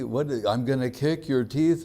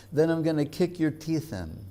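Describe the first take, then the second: First: Higher, disbelieving rising question; incredulous echo. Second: Higher, fierce mock threat; mock-fierce, as if ready to fight; intense threat. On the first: Retold or imitated. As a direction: echo the threat in mock disbelief. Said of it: "And everyone goes". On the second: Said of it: "Vrindavan Das is so intense that he says".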